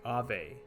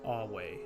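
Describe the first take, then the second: First: The middle consonant is a V sound. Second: The middle consonant is a W sound. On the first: This is the usual modern way. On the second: This is the classical Latin way.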